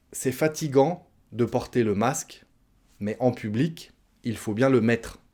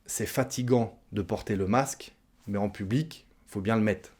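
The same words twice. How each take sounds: First: "mettre" said in full with its final re; full careful pronunciation. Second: "mettre" cut to "mett'", final re dropped; casual spoken elision. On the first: Teacher models the full sentence before shortening it, careful pronunciation. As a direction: carefully sound out every syllable of "mettre". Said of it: "si on parle un petit peu plus rapidement". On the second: Teacher shows faster everyday spoken French, casual elision. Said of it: "on mange le re de la fin du mot". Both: Shown as a demonstration.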